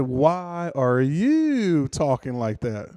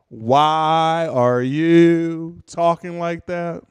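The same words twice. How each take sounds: First: Slow echo, slightly less labored; mocking slow-talking comeback; mimicking slow speech. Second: Loud, extremely slow question; mock impaired speech, loud and drawn out; stroke-slowed speaker. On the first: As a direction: throw the drawn-out question right back. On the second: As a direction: push out each long syllable laboriously. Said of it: "Because I had a stroke".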